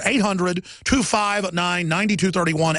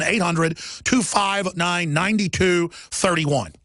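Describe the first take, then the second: First: Slow number read. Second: Slow, spaced-out phone number; said slowly. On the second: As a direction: spell it out slowly for first-time callers. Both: Shown as a demonstration. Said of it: "I'm gonna say it slow".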